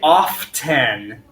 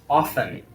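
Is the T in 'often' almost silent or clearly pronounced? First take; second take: pronounced; almost silent. First: The T sound is clearly pronounced. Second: The T sound is soft, almost silent. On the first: The speaker calls it wrong. "we don't say often" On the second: The speaker calls it right. "The T is very soft"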